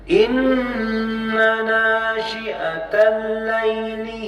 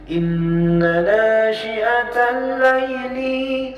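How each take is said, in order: First: The syllable 'li' is kept short. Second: The syllable 'li' is drawn out long. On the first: The speaker calls it right. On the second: The speaker calls it wrong.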